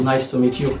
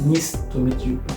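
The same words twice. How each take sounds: First: Nice is said the usual English way. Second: Nice is said like the French city name. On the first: The speaker calls it right. "on dit nice to meet you" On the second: The speaker calls it wrong. "à cause de la ville Nice en France"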